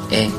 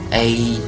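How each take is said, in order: First: The vowel stays steady as a single vowel. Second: The vowel glides like a diphthong. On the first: The speaker calls it right. "这样呢才是正确的发音" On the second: The speaker calls it wrong. "如果我们发成了A，那么口型呢就是从大到小"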